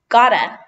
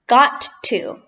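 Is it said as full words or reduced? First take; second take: reduced; full. First: The words are blended into one reduced word. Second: Both words are said fully and separately.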